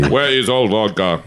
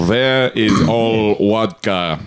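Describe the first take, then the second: First: Lightly voiced mock Russian accent; a hint of a comic Russian accent. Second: Slow, thick mock Russian accent; slow comic Russian accent, v turned to w. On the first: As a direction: toss off the Russian vodka line. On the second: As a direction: ham up a Russian asking for vodka. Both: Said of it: "man, my Russian accent".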